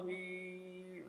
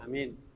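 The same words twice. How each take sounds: First: The word is drawn out excessively long. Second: The word is said very short.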